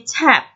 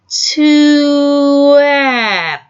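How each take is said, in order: First: The word is said at an ordinary pace. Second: The word is sounded out slowly, sound by sound.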